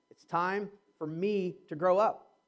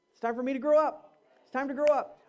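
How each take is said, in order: First: Drawn out slowly, teasing the punchline "It's time for me to grow up."; slow teasing line. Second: "It's time for me to grow up." said louder and plain-paced; firm declaration. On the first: Pastor teasing the congregation with a slow "It's time for me to grow up.". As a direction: savour each word of "It's time for me to grow up." to tease. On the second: Pastor driving home "It's time for me to grow up." with a loud, firm voice. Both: Shown as a demonstration. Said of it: "you thought I was gonna say something else".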